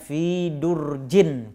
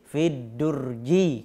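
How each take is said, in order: First: The noun ends with an -in sound. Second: The noun ends with an -i sound. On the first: The noun has no definite article. "fi durjin kalau dia tidak beralif lam" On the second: The noun carries the definite article. "tapi fi durji kalau dia beralif lam"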